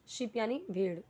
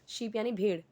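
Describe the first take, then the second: Both takes have the same delivery.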